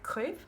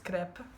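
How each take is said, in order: First: The word is pronounced the French way. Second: The word is pronounced the Italian way. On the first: "in French it's like crepe" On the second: "apparently it's crepe"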